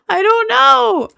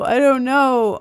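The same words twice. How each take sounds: First: Laughing I don't know, pitched way up; real laughter of total confusion; laughing helplessly. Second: Said in the usual way. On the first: Real, not acted. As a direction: giggle the words out in defeat. Stumped, laughing at herself.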